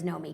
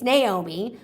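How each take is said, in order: First: The name is said with two syllables. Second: The name is said with three syllables. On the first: The speaker calls it wrong. "I hate that her name is Nomi" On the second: The speaker calls it right. "because it's Naomi"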